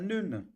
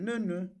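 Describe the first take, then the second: First: The two syllables do not go high then mid. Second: The first syllable is high, the second mid. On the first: The speaker calls it wrong. "C'est pas" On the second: The speaker calls it right. "C'est ne, ne. ... première syllabe ... c'est haut. Deuxième syllabe ... c'est moyen"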